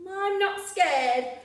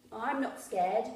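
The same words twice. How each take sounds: First: Slow, loud, higher insistence; defiant child. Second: Said in the usual way. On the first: Acted. Gruffalo's child boasting in the snowy wood, slow loud defiant. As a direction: shout bravely to hide fear.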